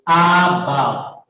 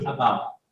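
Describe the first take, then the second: First: The first vowel is full and clear. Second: The first vowel is a weak, reduced schwa. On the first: The speaker calls it wrong. "You will not say about" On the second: The speaker calls it right. "but you will say about"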